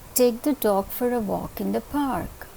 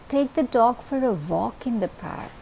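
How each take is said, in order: First: The word park carries the main stress. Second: The word walk carries the main stress. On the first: It must be the park and nowhere else. "If I place the stress on the word park" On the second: Going for a walk is what matters. "You're going to take it for a walk. That is important over here"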